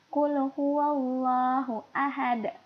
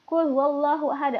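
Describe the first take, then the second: First: It is recited slowly and calmly. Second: It is recited quickly and hurriedly. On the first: The speaker calls it right. "Kayak gitu, pelan-pelan ya bacanya ya" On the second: The speaker calls it wrong. "Bacanya jangan buru-buru, jangan kayak gini"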